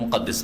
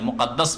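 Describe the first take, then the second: First: The last syllable has an 'i' vowel. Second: The last syllable has an 'a' vowel. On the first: The speaker calls it wrong. "আমাদের দেশের লোকেরা অনেকে বাইতুল মুকাদ্দিস বলে" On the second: The speaker calls it right. "হয় মুকাদ্দাস পড়েন"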